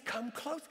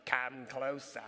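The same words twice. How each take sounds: First: Said in the usual way. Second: Low, quiet British accent imitation. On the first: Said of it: "Look, it says". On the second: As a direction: mimic the toy head's British accent. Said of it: "it had this British accent".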